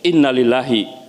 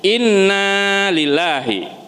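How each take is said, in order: First: The vowel after the double n is kept short. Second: The vowel after the double n is drawn out long. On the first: Indeed it belongs to God. The speaker calls it wrong. "kalau nanya tidak dibaca panjang" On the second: We belong to God. The speaker calls it right. "sesungguhnya kami milik Allah"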